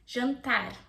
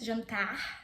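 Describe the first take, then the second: First: It is said in a Paulista Brazilian accent. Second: It is said in a Carioca Brazilian accent. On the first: "you can also have the Paulista accent" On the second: "you can have the carioca accent"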